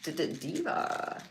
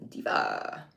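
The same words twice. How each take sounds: First: Stuttered "D-D-Diva" in odd voice. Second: Very low, falling "Diva"; deep diva voice. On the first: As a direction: stutter "D-D-Diva" like a hype announcer. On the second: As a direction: drop "Diva" way down low and slow. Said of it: "put Diva on this one". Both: Pretend.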